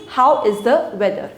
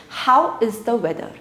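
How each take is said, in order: The two takes are said the same way.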